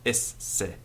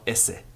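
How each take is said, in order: First: The S is doubled across both syllables. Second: The S is a single short sound. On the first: The speaker calls it right. "but esse" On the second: The speaker calls it wrong. "Not esse"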